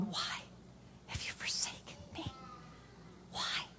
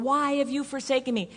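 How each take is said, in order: First: Barely audible, broken-up whisper with long pauses; Jesus whispering. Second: Higher-pitched, voiced cry at ordinary volume; imagined Jesus on the cross. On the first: Acted. Preacher voicing Jesus forsaken on the cross, a hushed halting whisper. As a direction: whisper it with hardly any voice, halting between phrases. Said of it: "I always picture him going". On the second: Preacher voicing how people picture Jesus on the cross, a restrained higher-pitched cry. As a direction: call the question upward, without shouting. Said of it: "we always picture Jesus going".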